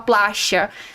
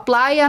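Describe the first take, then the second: First: The middle consonant is a hissing sh sound. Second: The middle consonant sounds like an English y. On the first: "na Argentina a gente fala" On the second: "Na Espanha a gente fala"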